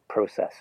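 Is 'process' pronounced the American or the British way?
British. It is said with a British vowel sound. This is the speaker's own habitual pronunciation. "they make fun of me for saying process"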